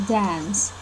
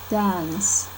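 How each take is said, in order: The two takes are said the same way.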